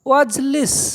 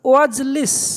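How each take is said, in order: No difference in how they are said.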